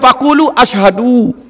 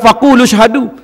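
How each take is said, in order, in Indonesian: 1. Kata kedua dimulai terpisah dengan vokal a. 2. Kata kedua tersambung dengan kata pertama tanpa vokal. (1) "Dia baca faqulu ashadu. Ashadu mana?" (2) "Kena baca wasa faqulu syahadu"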